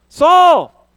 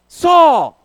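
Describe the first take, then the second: No difference in how they are said.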